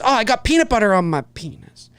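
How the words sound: The line is tossed off quietly, under the breath. The joke is left for the listener to notice. The speaker calls it wrong. "he throws it away, he goes"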